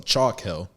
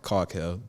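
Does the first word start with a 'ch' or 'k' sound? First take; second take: ch; k. First: The first word begins with a 'ch' sound. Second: The first word begins with a 'k' sound. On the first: The speaker calls it right. "I pronounce this right" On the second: The speaker calls it wrong. "I've been calling it Caulk Hill"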